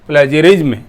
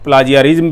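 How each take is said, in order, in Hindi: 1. पहला स्वर 'ay' जैसा सुनाई देता है। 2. पहला स्वर 'ah' जैसा सुनाई देता है। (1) "इसी तरीके से इसकी प्रोनाउंसिएशन है" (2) "प्लाजियरिज्म भी बोल सकते हैं लेकिन वो सही टर्म नहीं है"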